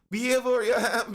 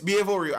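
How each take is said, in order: First: It is said in a woman's voice. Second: It is said in a man's voice.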